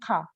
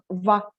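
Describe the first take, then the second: First: The word starts with a k sound. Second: The word starts with a v sound. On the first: This is how people in this region say it. "Aqui na região eles falam ka" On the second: This is how people in the capital say it. "em Oslo, eles falam va"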